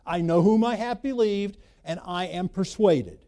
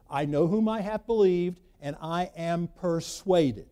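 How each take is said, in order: First: Louder, pressing on I know whom I have believed; emphatic repeat. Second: Said in the usual way. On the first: Shown as a demonstration. Pastor repeating Paul's words to the congregation, louder and emphatic. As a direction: hammer the quote home the second time. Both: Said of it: "repeats the quote with more force".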